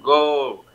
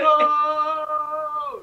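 First: The word is said short and normally. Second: The word is stretched out very long.

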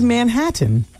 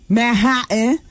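First: It is said with a standard pronunciation. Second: It is said with a hood pronunciation. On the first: "Instead of Manhattan" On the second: "you say Manhattan"

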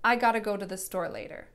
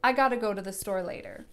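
First: The words are run together into gotta. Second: The same.

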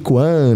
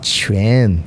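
First: The word begins with a hard k sound. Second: The word begins with a ch sound. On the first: The speaker calls it wrong. "o pessoal fala Tai Chi Kuan" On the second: The speaker calls it right. "Você fala tss. Então você fala Chuan"

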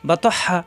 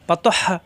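No difference in how they are said.

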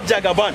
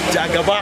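First: The word ends with an n sound. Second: The word ends in a vowel sound. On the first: The speaker calls it wrong. "It is not Jagaban" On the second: The speaker calls it right. "the actual, I think, pronunciation is Jagaba"

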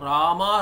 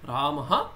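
First: The word ends on a bare vowel. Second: The word ends with an added 'ha' sound. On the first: The speaker calls it wrong. "That is not how we chant" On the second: The speaker calls it right. "So there is a pause"

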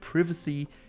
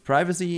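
First: It is said with a British pronunciation. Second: It is said with an American pronunciation. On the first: "privacy in British English" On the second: "privacy in American English"

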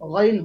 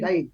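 First: The first vowel is a rounded 'o' sound. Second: The first vowel is an open 'a' sound. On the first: The speaker calls it right. "গাইন হবে না, গইন হবে" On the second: The speaker calls it wrong. "অনেকে গইন বলে না, গাইন বলে"

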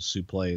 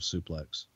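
First: The word ends in a 'play' sound. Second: The word ends in a 'plex' sound. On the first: This is one commentator's way of saying it. The speaker calls it wrong. "Gordon would call it a suplex" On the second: This is the usual way of saying it. The speaker calls it right. "instead of suplex"

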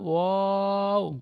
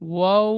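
First: The vowel is stretched out long. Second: The vowel is said short, without stretching. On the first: The speaker calls it right. "ওয়া বলে টান দেবেন" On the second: The speaker calls it wrong. "ওয়াও হবে না"

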